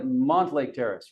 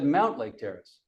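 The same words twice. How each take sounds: First: "Montlake Terrace" starting with "mont", no ow sound; common mispronunciation. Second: "Mountlake Terrace" starting like "mount", with ow; correct pronunciation. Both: Shown as a demonstration. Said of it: "It's actually Mountlake Terrace".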